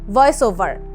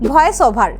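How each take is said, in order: First: The first sound uses upper teeth on lower lip. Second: The first sound is made with both lips. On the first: The speaker calls it right. "বরং শব্দটা হবে" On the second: The speaker calls it wrong. "এরকম কিন্তু হবে না"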